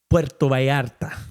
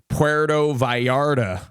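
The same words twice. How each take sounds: First: It is said with a Spanish accent. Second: It is said with an English accent.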